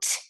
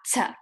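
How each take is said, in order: First: The sound is short with no vowel after. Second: The sound has an extra vowel after it. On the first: The speaker calls it right. "the letter T spells the sound T" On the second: The speaker calls it wrong. "not T"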